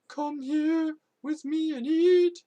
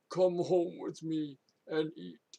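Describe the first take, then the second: First: It is said in a weird singsong voice. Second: It is said in a plain, non-singsong voice.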